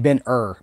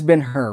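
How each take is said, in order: First: The H of the second word is silent. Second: The H of the second word is pronounced. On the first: "I always feel like I should say Ben Hur" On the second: "We repronounce the H"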